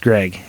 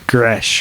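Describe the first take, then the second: First: The name ends with a hard G sound. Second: The name ends with a soft SH sound. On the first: The speaker calls it wrong. "It's not pronounced Greg" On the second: The speaker calls it right. "it's pronounced Gresh or or I don't know"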